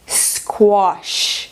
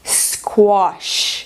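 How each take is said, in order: First: A British accent with an O-like vowel. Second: The same.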